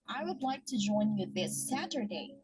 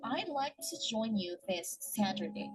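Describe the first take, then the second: First: 'I would' is said as two full words. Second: 'I would' is contracted into one syllable. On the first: This is the formal way to say it. "in the formal English we say" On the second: This is the informal way to say it. "In the informal English, instead of saying I would, we'll just say I'd"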